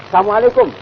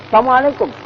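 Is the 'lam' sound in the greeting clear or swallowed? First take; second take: swallowed; swallowed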